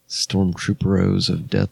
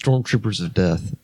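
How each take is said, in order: First: It is said in a mock Spanish accent. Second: It is said in a plain English accent.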